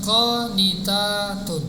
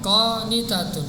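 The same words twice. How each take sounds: First: The vowel after the t is long. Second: The vowel after the t is short. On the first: It refers to many obedient women. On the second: It refers to one obedient woman.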